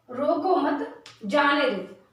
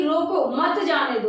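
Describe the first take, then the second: First: रोको मत said together, then जाने दो; slowly, group रोको मत, break before जाने दो; pause after मत. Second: रोको set apart, then मत जाने दो together; pause after रोको. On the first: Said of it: "इसका मतलब है कि किसी को रोको मत". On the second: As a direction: comma break straight after रोको. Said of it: "यहाँ कॉमा लगा दूं". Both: Shown as a demonstration.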